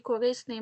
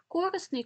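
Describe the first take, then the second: First: Корисний stressed on РИ, the second syllable. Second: Корисний stressed on КО, the first syllable, pitched higher. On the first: Teacher showing students the other allowed stress, корисний stressed on РИ. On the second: Teacher showing students a double stress, корисний stressed on first syllable КО. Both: Shown as a demonstration. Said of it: "які мають подвійний".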